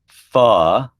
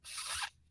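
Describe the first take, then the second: First: The consonant is followed by a short uh vowel. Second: The consonant is clipped with no vowel after it. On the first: The speaker calls it wrong. "not f" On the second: The speaker calls it right. "It's f"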